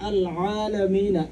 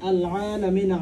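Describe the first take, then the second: First: The second word starts with a throaty pharyngeal sound. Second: The second word starts with a throaty pharyngeal sound.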